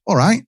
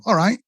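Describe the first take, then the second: First: High rising "All right" as a northern English hello; northern greeting. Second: "All right" answered high and rising, same as the hello; northern reply. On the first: Greeting someone up north with a rising "All right". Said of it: "you say". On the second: The other person answering the greeting with "All right". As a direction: toss "All right" straight back, rising. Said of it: "And they go". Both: Retold or imitated.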